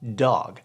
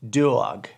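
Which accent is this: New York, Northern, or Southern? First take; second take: Northern; New York. First: It is said in a Northern US accent. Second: It is said in a New York accent.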